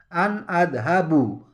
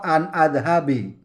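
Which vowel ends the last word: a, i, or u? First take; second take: u; i. First: The last word ends in an u vowel. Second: The last word ends in an i vowel. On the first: "tidak boleh dibaca an adhabu" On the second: "atau an adhabi, tidak boleh"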